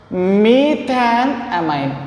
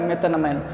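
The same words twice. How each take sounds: First: "methanamine" drawn out slowly, part by part; slow pronunciation. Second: Said in the usual way. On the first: Shown as a demonstration. Teacher showing students how to pronounce the compound's name, "methanamine" said very slowly. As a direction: stretch out each part of "methanamine". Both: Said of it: "we have to pronounce as".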